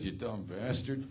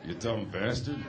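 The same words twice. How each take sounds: First: Much softer and lower, slow; muttered insult. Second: Under his breath. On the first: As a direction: say it low so he can't hear. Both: Retold or imitated. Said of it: "under my breath".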